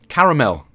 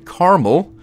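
First: It is said with a British accent. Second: It is said with an American accent. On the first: The speaker calls it right. "There's literally another A in it" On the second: The speaker calls it wrong. "I don't know why Americans say caramel"

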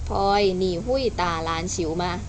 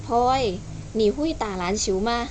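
First: It is flat and quick, like a memorized recitation. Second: It is lively, with pauses, like real conversation. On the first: The speaker is reciting a memorized line. The speaker calls it wrong. "ที่หนูพูดเมื่อกี้" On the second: The speaker is really talking to a friend. The speaker calls it right. "เราก็เพิ่มโทนเสียงไปอีกนิดนึงมันจะดูเป็นการคุยกันมากขึ้น"

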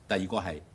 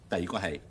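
No difference in how they are said.

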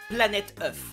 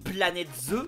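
First: The last word ends with an f sound. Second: A z sound links into the last vowel. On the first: The eggs are treated as one egg. The speaker calls it wrong. "Mais attends, mais c'est au pluriel" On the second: The plural is marked on both words. The speaker calls it right. "il y a un S à planète, faut faire la liaison"

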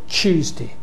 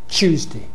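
First: It starts with a merged ch sound. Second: It starts with a merged ch sound.

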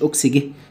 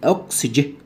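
First: The g is hard, like in go. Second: The g is soft, like j. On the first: The speaker calls it wrong. "مش اوكسجي" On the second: The speaker calls it right. "برضو الجي جاي وراها اي"

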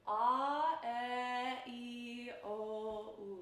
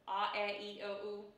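First: The vowels are long and tall, Italian style. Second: The vowels are short and clipped, American style. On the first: The speaker calls it right. "more like the Italians would say them. Very proper, very lengthy, very tall" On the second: The speaker calls it wrong. "that was in a very American way of saying my vowels"

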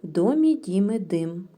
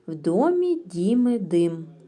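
First: It is spoken at a faster pace. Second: It is spoken at a slow pace. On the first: "Швидше" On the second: "спочатку треба вимовляти в уповільненому темпі"

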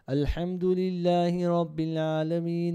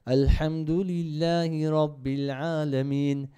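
First: It is read at a faster pace. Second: It is read at a slower pace.

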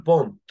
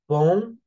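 First: The word ends with an audible t sound. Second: The word ends without any t sound. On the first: The speaker calls it wrong. "محدش يقول بونت غلط" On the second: The speaker calls it right. "نطقه بون"

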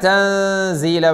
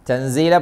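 First: The n sound is concealed into a nasal hum. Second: The n sound is pronounced clearly, not concealed. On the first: The speaker calls it right. "വേണം" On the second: The speaker calls it wrong. "പറ്റില്ല"

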